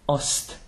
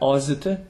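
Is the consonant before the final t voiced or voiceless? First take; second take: voiceless; voiced. First: The consonant before t is a voiceless s. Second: The consonant before t is a voiced z. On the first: The speaker calls it right. "So it'll unvoice before an unvoiced consonant" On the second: The speaker calls it wrong. "But it's not azt"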